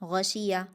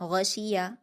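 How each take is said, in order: The two takes are said the same way.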